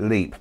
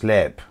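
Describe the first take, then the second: First: It is said the way British speakers say it. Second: It is said the way locals in Ireland say it. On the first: The speaker calls it wrong. "the Brits might pronounce it" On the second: The speaker calls it right. "it's actually pronounced Leap in Southern Ireland"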